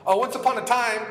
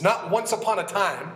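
First: "once upon a time" said higher and louder, storybook mockery; preacher mocking the idea of faith as an old tale; mocking fairy-tale tone. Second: Said in the usual way. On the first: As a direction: lift it like a mock bedtime story.

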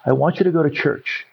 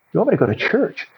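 First: "I want you to go to church." level, falling close; firm repeated instruction. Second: "You want me to go to church?" pitched high, rising; incredulous echo question. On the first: Mother repeats her order to her doubting son, firmly. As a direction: restate it evenly, settling downward on "church". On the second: Son questions his mother's order to go to church, incredulous. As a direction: query it back, lifting "want" and ending upward on "church". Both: Retold or imitated.

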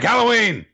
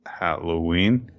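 First: Chanted, "Halloween!" shrieked high and louder, falling at the end; chanted, squeal "Halloween!" like a possessed doll; chanted, piercing high "Halloween!" from a demon girl; creepy demon chant. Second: A slow, puzzled repeat of "Halloween?" with a rising end; baffled, halting "Halloween?"; confused. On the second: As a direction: echo "Halloween?" slowly, not sure what you heard. Baffled driver repeats the word. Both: Acted.

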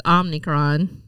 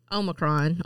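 First: Omnicron with an added n, "OM-ni-cron"; Biden's mispronunciation. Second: Omicron said as "OH-mi-cron", no extra n; correct Omicron. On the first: Retold or imitated. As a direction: imitate Biden saying Omnicron. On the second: Shown as a demonstration. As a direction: say Omicron properly, the standard way. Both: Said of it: "or as Joe Biden says".

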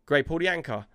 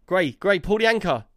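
First: Said in the usual way. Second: Raised, louder urgent order; urgent repeated call. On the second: Retold or imitated. Skipper to crewmate as the ship nears the wall, urgent. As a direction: call out more insistently to a crewmate.

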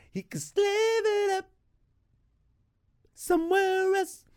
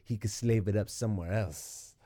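First: Squeaky high falsetto, mocking; mock falsetto repeat. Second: Said in the usual way. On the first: Mocking repeat of own line.

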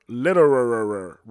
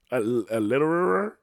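First: "Litterer." said slowly and firmly, falling at the end. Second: "litterer?" asked with a doubtful rising tune; questioning litterer. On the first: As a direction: settle on "Litterer" with a firm fall. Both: Shown as a demonstration. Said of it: "I don't know if that's a word".

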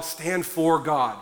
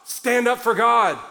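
First: Said in the usual way. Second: Pleading with the church to stand up; emphatic plea. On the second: Shown as a demonstration. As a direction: push it out as an urgent command. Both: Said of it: "For the love of God".

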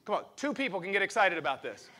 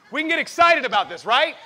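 First: Said in the usual way. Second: Much higher and louder, rallying; excited shout. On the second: Real, not acted. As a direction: whip the crowd up with a shout.

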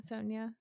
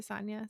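First: Sonia as SOHN-ya, softly; soft Sonia, first vowel as in "so". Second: Sonia as SAHN-ya, softly; soft Sonia, "ah" as in "father". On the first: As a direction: say Sonia with a long "oh". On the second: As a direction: say Sonia with an open first vowel. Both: Shown as a demonstration. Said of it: "is it Sonia or Sonia?".

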